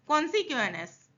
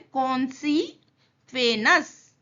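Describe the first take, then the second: First: The word is said smoothly as one unit. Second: The word is split into separate syllable chunks. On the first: "फिर साथ में बोलना है" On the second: "तोड़ के बोलना है। क्या बोलना है पहले?"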